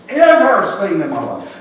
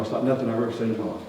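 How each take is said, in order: First: 'Ever seen in my life' slower and louder, leaning on 'Ever'; slow, loud stressed echo; emphatic repeat. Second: Said in the usual way. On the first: Acted. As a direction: land 'Ever' hard and drag the phrase out.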